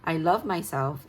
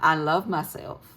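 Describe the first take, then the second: First: It is spoken in a plain accent. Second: It is spoken in a country accent.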